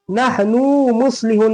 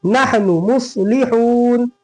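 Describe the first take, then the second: First: "नहनु" with the final "नु" dragged long; wrongly lengthened vowel. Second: "नहनु मुस्लिहून" with short "नु", long held "हून"; correct vowel lengths. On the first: Teacher showing how not to read it, wrongly lengthened vowel. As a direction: stretch "नु" before "मुस्लिहून". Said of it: "नहीं पढ़ेंगे". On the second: Teacher giving the right reading, correct vowel lengths. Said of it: "क्या पढ़ेंगे". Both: Shown as a demonstration.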